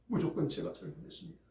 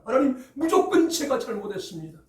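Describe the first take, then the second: First: Much softer and faster, 무조건 with a small rise; quiet confession. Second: High, loud, with 무조건 stressed and falling; loud confession. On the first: David quietly repeating his confession to God. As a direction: repeat it under your breath, quickly. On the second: David loudly confessing his fault to God. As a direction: cry out the confession with full force. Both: Acted. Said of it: "라고 고백하는 내용이".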